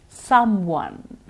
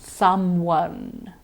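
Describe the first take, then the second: The two takes are said the same way.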